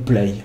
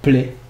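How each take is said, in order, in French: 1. Il est prononcé avec un accent français. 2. Il est prononcé avec un accent anglais.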